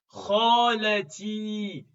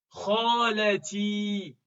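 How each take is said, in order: The two takes are said the same way.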